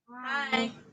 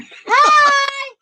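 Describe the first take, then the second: First: It is said short and weakly. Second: It is said louder and stronger.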